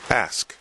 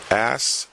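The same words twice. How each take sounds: First: The s sound comes before the k sound. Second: The same.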